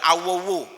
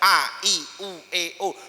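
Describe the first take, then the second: First: The vowels run together into one slurred sound. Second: Each vowel is articulated separately and clearly. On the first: The speaker calls it wrong. "Bukan awowo" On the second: The speaker calls it right. "Tapi tetap artikulasinya terjaga"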